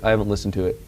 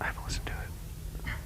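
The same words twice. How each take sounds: First: It is said loudly. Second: It is said quietly.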